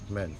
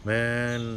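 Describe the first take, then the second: First: The vowel is kept short. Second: The vowel is drawn out long. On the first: The speaker calls it right. "बल्कि मैन" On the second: The speaker calls it wrong. "मैन नहीं बोलेंगे"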